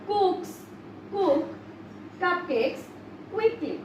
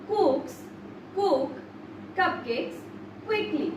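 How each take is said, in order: No difference in how they are said.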